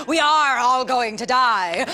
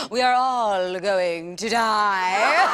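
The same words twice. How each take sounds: First: Said in the usual way. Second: Slow, drawn-out with a laugh; slow laughing repeat. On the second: Shown as a demonstration. Comedian repeating the punchline slowly, laughing. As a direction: stretch it out, laughing. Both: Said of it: "repeated slower".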